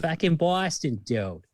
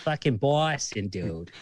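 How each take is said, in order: First: Higher, slow, emphatic Boston accent. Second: Slow, drawn-out Boston accent; Boston accent, dragging the words. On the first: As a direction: lean harder into the Boston accent. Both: Shown as a demonstration. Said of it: "the Boston accent right".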